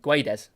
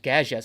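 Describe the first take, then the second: First: The name is said with a clear D sound. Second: The name is said without the spelled D sound. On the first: The speaker calls it wrong. "I usually call him Guedes, you know, because there's a D" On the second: The speaker calls it right. "that is definitely not how you say it, it actually is"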